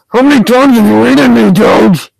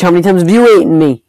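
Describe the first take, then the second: First: High, loud exasperated demand; heated, raised-voice gamer complaint; angry shout. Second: Said in the usual way. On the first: Real, not acted. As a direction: yell the accusation at a rival player. Repeats complaint, now shouting at Doge.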